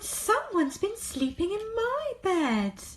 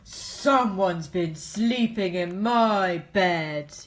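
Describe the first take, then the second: First: It is said in a middle-sized voice. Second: It is said in a great big voice. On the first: "cried in her middle-sized voice" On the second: "he said in his great big voice"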